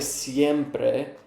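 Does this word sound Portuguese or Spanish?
Spanish. It is said with a Spanish-like pronunciation. The speaker calls it wrong. "na verdade não é sempre"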